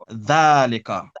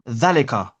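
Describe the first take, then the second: First: The vowel after 'dh' is long. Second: The vowel after 'dh' is short. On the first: This is how it is actually said. "but we pronounce it dhalika" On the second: This is how it is spelled. "it's written dhalika"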